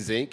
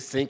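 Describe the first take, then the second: First: The word begins with a buzzing z sound. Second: The word begins with a hissing s sound. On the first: This is how the family at home says it. "when you go home, you say zinc" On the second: This is how it is said at the university. "you say sink when you're at Tulane"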